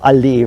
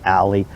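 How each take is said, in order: First: The word is pronounced the German way. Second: The word is pronounced the English way. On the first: It names a tree-lined street. "German for tree-lined street" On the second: It names a narrow back lane. "same word basically as alley"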